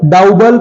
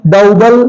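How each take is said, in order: The two takes are said the same way.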